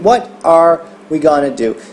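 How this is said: The stress falls on the word are. "nesse caso a ênfase ficou no are"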